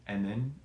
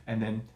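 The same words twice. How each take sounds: The two takes are said the same way.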